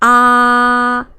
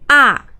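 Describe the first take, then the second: First: The pitch stays high and level. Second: The pitch falls sharply from high to low. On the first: "The first is ah, very flat" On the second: "just go down straight"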